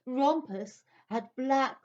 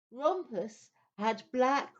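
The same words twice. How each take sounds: The two takes are said the same way.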